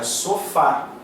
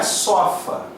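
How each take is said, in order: First: "sofá" with the stress on FÁ; last syllable of "sofá" stressed; correct sofá. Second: "sofa" with the stress on SO; open, stressed first syllable in "sofa"; wrongly stressed sofa. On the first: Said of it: "é sofá". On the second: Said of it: "não é sofa". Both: Shown as a demonstration.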